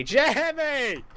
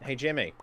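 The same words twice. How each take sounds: First: High, loud call stretched out long; drawn-out call. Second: Said in the usual way. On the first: Real, not acted. Gamer hailing his rival Jimmy, high drawn-out call. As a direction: call it out high, dragging the name.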